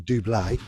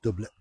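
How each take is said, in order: First: The word is said in a posh-sounding way. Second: The word is said in a plain way. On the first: "because it sounds posh" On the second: "or it might be pronounced doublet"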